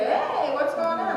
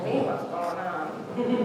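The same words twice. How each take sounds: First: Lightly voiced son, higher and slower, as if nothing happened; son's breezy voice. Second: A mother echoing "Hey, what's going on?" slow and flat in disbelief; stunned echo. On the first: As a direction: play the carefree kid strolling back downstairs. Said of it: "come back down and say". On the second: Retold or imitated. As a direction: repeat his words back, dumbfounded and slow. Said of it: "I'd be like".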